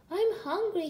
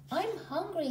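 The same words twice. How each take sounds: First: High, whiny plea from a small cub; whining. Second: High, moaning complaint of a small cub. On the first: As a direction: whine it like a tired little brother. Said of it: "he whined". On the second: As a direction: moan it like a bored little brother. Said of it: "he moaned". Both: A narrator's reading.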